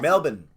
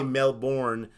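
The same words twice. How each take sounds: First: The R sound in the word is dropped. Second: The R sound in the word is pronounced. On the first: This is how locals say it. The speaker calls it right. "is how you pronounce it" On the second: This is how outsiders say it. The speaker calls it wrong. "We say Melbourne"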